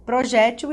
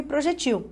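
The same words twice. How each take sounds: First: "Projétil" stressed pro-JÉ-til; tônica na penúltima. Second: "projetil" stressed pro-je-TIL; tônica na última. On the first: ("Projétil" com tônica no JÉ) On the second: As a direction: stress the last syllable of "projetil". ("projetil" com tônica no TIL) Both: Shown as a demonstration. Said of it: "as duas estão corretas".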